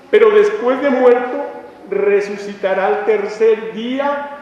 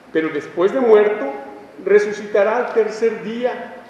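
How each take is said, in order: The two takes are said the same way.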